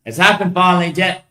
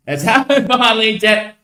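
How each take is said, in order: First: Said in the usual way. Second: Laughing it out, higher. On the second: Real, not acted. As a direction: say it again through a laugh. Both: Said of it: "repeated with a laugh".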